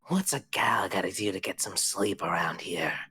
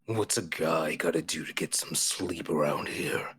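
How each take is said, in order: First: Breathy whisper of the other head; same line from the female head. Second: Low breathy whisper of a grumpy monster head; male head voice. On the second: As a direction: rasp it out like a sleepy brute. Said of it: "says one head". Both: Acted.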